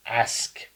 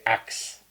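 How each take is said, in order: First: Said in the usual way. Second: "axe" with K and S swapped; ask as axe. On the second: Shown as a demonstration. Showing how others say ask, "axe" with K before S. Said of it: "They say axe".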